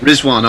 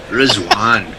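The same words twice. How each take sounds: First: Said in the usual way. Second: Rizwan with a rolled Scottish r; Glaswegian accent. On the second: Shown as a demonstration. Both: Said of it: "I always wanna say it in a Glaswegian accent".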